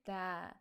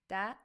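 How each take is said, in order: First: The vowel is held longer. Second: The vowel is short.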